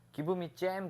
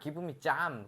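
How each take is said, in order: First: The vowel in jam sounds like 'ae'. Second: The vowel in jam sounds like 'ah'. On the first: Local listeners do not understand it. The speaker calls it wrong. "give me jam 그러면 what 이래" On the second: Local listeners understand it. The speaker calls it right. "이게 애 발음을 다 아 발음이라고 그러고"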